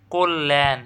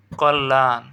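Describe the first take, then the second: First: কল্যাণ as "kol-len"; correct pronunciation. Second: Said in the usual way. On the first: Shown as a demonstration. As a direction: say কল্যাণ with an o, doubled l and "e" ending. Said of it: "এটা সঠিক উচ্চারণ কী হবে?". (কল্যাণকে "কোল্-লেন" উচ্চারণ)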